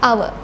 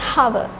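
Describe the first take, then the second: First: The word begins with a vowel sound. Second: The word begins with an H sound. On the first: The speaker calls it right. "Don't make H sound. It's just hour" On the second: The speaker calls it wrong. "We don't pronounce the H sound here. We don't say hour"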